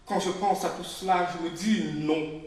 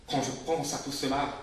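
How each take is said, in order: First: Louder refrain. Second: Said in the usual way. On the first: Acted. Speaker recalling discrimination, louder and more urgent. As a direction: push the refrain harder. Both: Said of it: "repeated refrain".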